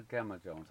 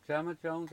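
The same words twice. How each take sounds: First: GEMMA said with a hard G, as in "get"; hard G pronunciation. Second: GEMMA said with a soft G, like "Jemma"; soft G pronunciation. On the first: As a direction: start GEMMA with a hard G sound. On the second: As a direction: start GEMMA with a J sound. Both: Shown as a demonstration. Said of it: "How do you pronounce it?".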